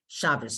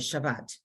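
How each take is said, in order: First: The word ends with an s sound. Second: The word ends with a t sound. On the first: This is not the modern Hebrew form. The speaker calls it wrong. "they don't say Shabbos" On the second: This is the modern Hebrew form. The speaker calls it right. "they say Shabbat"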